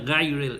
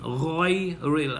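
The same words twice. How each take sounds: First: The first consonant sounds light and thin. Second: The first consonant sounds heavy and full. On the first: The speaker calls it wrong. "a lot of people say ghayril, it is not ghayril" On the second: The speaker calls it right. "Now this ghayn here is tafkhim"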